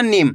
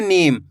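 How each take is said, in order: First: नीम cut short, like nim; नीम without stretching the vowel. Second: नीम with the ee stretched long; नीम, long ee before the m; drawn-out long vowel. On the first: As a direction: say नीम with a brief i. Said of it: "ऐसे नहीं पढ़ना". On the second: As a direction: pull out the ee in नीम. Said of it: "पढ़ना आपको खींच के". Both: Shown as a demonstration.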